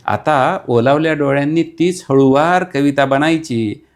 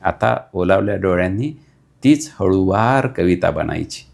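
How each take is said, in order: First: Dramatic repeat. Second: Said in the usual way. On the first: Acted. Repeat raised, poetic stress.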